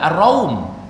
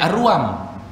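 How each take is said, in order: First: The vowel a comes before u after r. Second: The vowel u comes before a after r. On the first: The speaker calls it right. "Kita belajar tajwid ada Ar-Raum" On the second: The speaker calls it wrong. "jangan salah sebut, nanti jadi Ar-Ruam"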